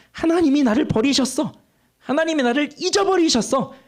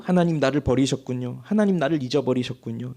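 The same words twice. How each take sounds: First: High complaining cry. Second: Quiet resigned lament. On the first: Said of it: "이렇게 말하고 있는 거예요". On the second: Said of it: "이런 생각 안 했다고 한다면". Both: Retold or imitated.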